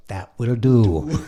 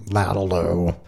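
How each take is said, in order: First: Slow, separated words; retold interpreter, drawn out and distinct; clear translation. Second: Slurred, run-together mumble; lightly imitated garbled musician; grumbling Ray. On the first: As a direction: spell out each word slowly for the listener. Blondie translating the mumble clearly. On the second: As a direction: mumble it as one blurred word. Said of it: "grumbling in the background".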